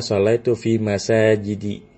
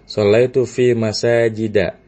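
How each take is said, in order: First: The word masajid ends with an i vowel. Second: The word masajid ends with an a vowel. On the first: The speaker calls it wrong. "Tidak dibaca" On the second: The speaker calls it right. "kalau ghairu munsharif ketika jar tandanya bukan kasrah tapi fathah"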